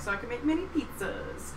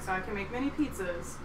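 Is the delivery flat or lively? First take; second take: lively; flat. First: It is said playfully with more varied energy. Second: It is said plainly with flat energy. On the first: "I was just, like, fucking around on stage" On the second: "I would say it really plain like that"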